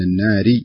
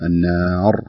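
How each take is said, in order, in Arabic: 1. الراء مرققة، تتصل بالكلمات التي بعدها. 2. الراء مفخّمة، مع وقف بعدها. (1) "لو وصلناها ما بعدها نرققها لأنها بتكون مكسورة" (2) "لكن إذا وقفنا نقول النار"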